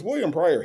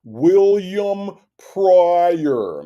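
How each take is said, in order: First: Said in the usual way. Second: Very slow, stretched, higher-pitched name; mock someone oddly dragging out their own name; mimicking drawn-out name. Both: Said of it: "why does he say his own name like that?".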